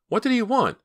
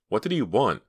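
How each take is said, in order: First: Frightened, much higher and louder; alarmed. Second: Worried question; anxious. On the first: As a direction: demand it in fear. Myra repeats, alarmed. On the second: First asking. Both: A narrator's reading.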